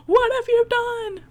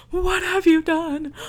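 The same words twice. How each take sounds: First: Much higher, louder shrieking repeat; hammed-up mother's shriek; mock hysterical mother. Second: Higher, louder panicked cry; imitating a mother's shocked cry; mock horrified mother. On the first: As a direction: push the panic further into a hysterical shriek. Mother voiced, repeated cry. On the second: Mother voiced finding stabbed son.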